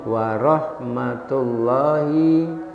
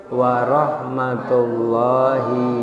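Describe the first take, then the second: No difference in how they are said.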